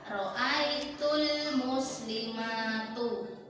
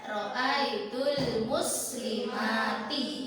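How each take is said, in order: First: The last word ends with a u vowel. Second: The last word ends with an i vowel. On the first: The speaker calls it wrong. "Tidak boleh dibaca ro'aitul muslimatu. Enggak betul kalau dibaca seperti itu" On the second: The speaker calls it right. "Membacanya yang benar ro'aitul muslimati"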